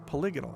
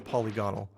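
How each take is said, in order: First: The stress is on the second syllable. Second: The stress is on the first syllable. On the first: "I say polygonal" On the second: "it's obviously polygonal because it's a polygon"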